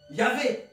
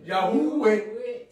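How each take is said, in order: First: The middle consonant is a v sound. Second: The middle consonant is a w sound. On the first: This is the more recent pronunciation. "Parce qu'on prononce le V comme V" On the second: This is the older, original pronunciation. "si on prononce comme OUE, ça fait Ya. Yahweh"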